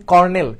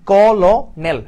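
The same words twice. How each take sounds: First: Said in the usual way. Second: কলনেল read as spelt, kol-nel, louder; spelling pronunciation. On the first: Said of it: "কর্নেল বানানটা কিন্তু আমার কি?". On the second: Shown as a demonstration. Teacher to students, reading colonel as it is spelt: kol-nel. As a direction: say কলনেল letter by letter as written, not কর্নেল. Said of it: "ভেঙে ভেঙে উচ্চারণ করি তাহলে কি আসতেছে".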